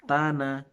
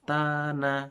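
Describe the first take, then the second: Both takes have the same delivery.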